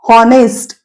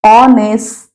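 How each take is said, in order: First: The word begins with an h sound. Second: The word begins directly with a vowel. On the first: The speaker calls it wrong. "ह हॉनेस्ट असं नाही म्हणत आपण" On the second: The speaker calls it right. "आपण काय म्हणतो त्या ठिकाणी ऑनेस्ट"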